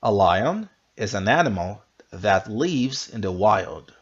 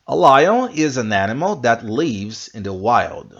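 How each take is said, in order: First: Slowed, careful re-read; slow repeat. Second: Louder, clear classroom read; model sentence. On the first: Teacher repeating slowly so students can follow. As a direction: go through it slowly word by word. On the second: Teacher reading lion example aloud. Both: Shown as a demonstration. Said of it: "One more time".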